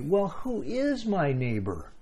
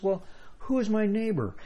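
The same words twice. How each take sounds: First: It is said in a cynical, sneering tone. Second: It is said in a plain, neutral tone.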